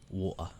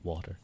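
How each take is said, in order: First: The T in the middle is dropped entirely. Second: The T in the middle sounds like soft D. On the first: "British pronounce it ... no T" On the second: "more common in Ireland ... The T becomes a soft D"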